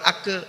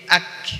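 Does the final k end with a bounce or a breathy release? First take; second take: bounce; breathy release. First: The final k has an echoing bounce. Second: The final k releases a puff of breath. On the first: The speaker calls it wrong. "Kalau qalqalah itu ak" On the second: The speaker calls it right. "bunyi ditahan tetapi nafas dikeluarkan"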